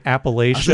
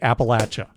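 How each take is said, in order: First: It uses the Midwestern pronunciation of the name. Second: It uses the local Appalachian pronunciation of the name. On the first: The speaker calls it wrong. "I'm from the Midwest. We say Appalachia" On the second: The speaker calls it right. "it's very clear it's supposed to be Appalachia"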